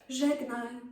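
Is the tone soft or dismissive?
soft. It is said in a soft tone.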